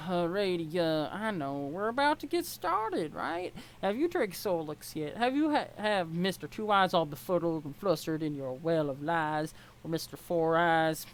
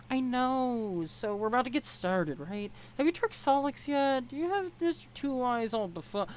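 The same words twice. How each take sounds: First: Lightly voiced Southern accent, teasing. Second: Put-on a lighter, higher girl's voice with no Southern twang; higher character voice, no accent. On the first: Troll girl teasing Ebony about Solix in a light Southern accent. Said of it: "this is Southern accent". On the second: Troll girl teasing Ebony about tricking Solix, higher, no accent. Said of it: "no, this is Southern accent".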